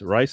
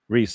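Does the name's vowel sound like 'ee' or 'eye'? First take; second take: eye; ee. First: The vowel sounds like 'eye'. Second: The vowel sounds like 'ee'. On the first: The speaker calls it wrong. "Rice is how you say it?" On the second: The speaker calls it right. "Sorry, Reese"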